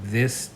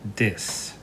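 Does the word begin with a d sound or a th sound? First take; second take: th; d. First: The word begins with a voiced th sound. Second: The word begins with a d sound. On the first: The speaker calls it right. "instead of saying this" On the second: The speaker calls it wrong. "may say dis"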